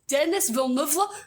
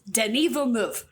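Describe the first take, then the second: First: The first name sounds like the name Dennis. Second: The first name does not sound like Dennis. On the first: The speaker calls it wrong. "I always said Denis Villeneuve, and then that was wrong" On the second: The speaker calls it right. "but it is Denis Villeneuve"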